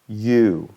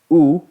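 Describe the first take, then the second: First: A vowel that glides, moving during the sound. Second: A pure vowel that stays steady throughout. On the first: "vamos a ver ese movimiento" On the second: "una U pura, o sea, podríamos decir, no es, no es un diptongo, no hay movimiento"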